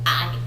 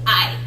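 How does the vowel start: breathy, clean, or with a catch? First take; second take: with a catch; with a catch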